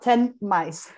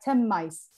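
First: The N of ten stays a clear N sound. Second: The N of ten turns into an M sound. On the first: The speaker calls it wrong. "not 10 mice" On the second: The speaker calls it right. "it's going to sound like 10 mice"

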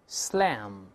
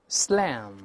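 The two takes are said the same way.

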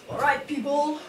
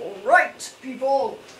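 First: It is said in a natural, everyday voice. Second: It is said in a put-on, unnatural voice.

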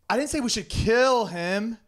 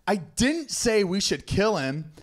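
First: The stress falls on the word 'kill'. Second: The stress falls on the word 'didn't'.

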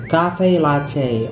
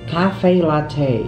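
The two takes are said the same way.

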